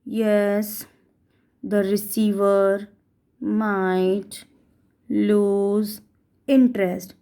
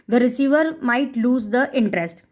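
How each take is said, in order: First: It is said very slowly, word by word. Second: It is said at a normal speaking pace.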